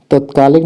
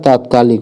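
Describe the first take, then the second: First: तत्कालिक with short first vowel, tat-; wrong pronunciation. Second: तात्कालिक with long first vowel, taat-; correct pronunciation. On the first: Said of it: "तत्कालिक नहीं होता है". (तत्कालिक का पहला 'त' छोटे 'अ' से बोलें) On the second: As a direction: open up the first syllable of तात्कालिक. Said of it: "तात्कालिक होता है". (तात्कालिक में 'ता' लंबा बोलें) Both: Shown as a demonstration.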